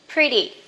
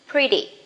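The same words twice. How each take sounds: First: The middle consonant is a soft D-like tap. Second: The middle consonant is a soft D-like tap.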